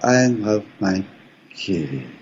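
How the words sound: It ends on the voice's home note.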